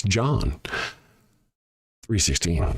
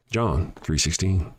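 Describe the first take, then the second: First: Slower. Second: Said in the usual way. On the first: Shown as a demonstration. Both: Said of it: "I'll say it again slower".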